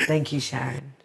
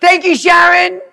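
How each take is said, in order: First: Lower, softer aside of gratitude; low-key thanks. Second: Loud, very high, sing-out gratitude; called-out thanks. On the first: Retold or imitated. Thanking Sharon for the grout lesson, low-key. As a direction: say it down low, almost to yourself. First, private thanks to her teacher. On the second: Pretend. Calling thanks to Sharon for the grout lesson, exuberant. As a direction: holler it to someone far away.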